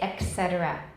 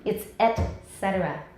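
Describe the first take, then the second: First: A k sound comes before cetera. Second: There is no k sound before cetera. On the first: The speaker calls it wrong. "you'll hear people say et cetera, 把 k 放在前面" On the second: The speaker calls it right.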